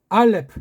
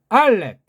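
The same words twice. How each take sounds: First: It is said at a quicker, hurried pace. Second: It is said at a slower, unhurried pace.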